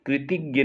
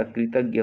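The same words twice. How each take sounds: First: कृतज्ञ said as "kri-tig-ya"; mispronounced word. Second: कृतज्ञ said as "kri-tag-ya"; correct pronunciation. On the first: Teacher showing students the mistake, कृतज्ञ as "kritigya". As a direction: put an i after the t in कृतज्ञ. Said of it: "कृतज्ञ नहीं होता". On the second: Teacher correcting students, कृतज्ञ as "kritagya". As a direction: clear a after the t in कृतज्ञ. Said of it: "कृतज्ञ होता है". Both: Shown as a demonstration.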